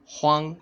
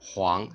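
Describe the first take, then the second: First: The pitch stays high and level. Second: The pitch rises from mid to high. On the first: "first tone" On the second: "second tone"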